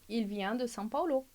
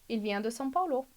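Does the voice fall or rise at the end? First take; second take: fall; fall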